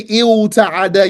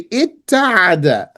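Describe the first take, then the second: First: The word begins with an l sound. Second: The word begins with a doubled t sound. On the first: The speaker calls it wrong. "you don't say il ta'ada" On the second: The speaker calls it right. "you say it ta'ada"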